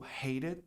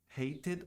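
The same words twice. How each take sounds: First: It is said with the American pronunciation. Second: It is said without the American pronunciation.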